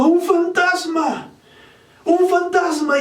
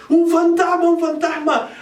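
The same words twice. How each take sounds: First: High, slow frightened cry; cry of fear. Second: High frightened cry with a sudden hit of volume; cry of fear. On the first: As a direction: cry out as if you've seen a ghost. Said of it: "y dieron voces de miedo". (grito asustado, agudo y lento) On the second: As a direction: shout it as if terrified at a ghost. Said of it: "daban voces de miedo". (grito de miedo, agudo y fuerte) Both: Acted.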